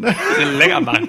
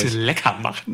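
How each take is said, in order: First: Squeaky high laughing mockery. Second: Said in the usual way. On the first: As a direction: repeat it up high through laughter.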